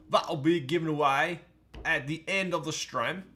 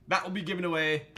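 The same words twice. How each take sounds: First: Mock Australian English accent, louder. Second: Said in the usual way. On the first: Shown as a demonstration. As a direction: give it a jokey Australian twang. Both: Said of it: "That was my, uh, Australian English accent".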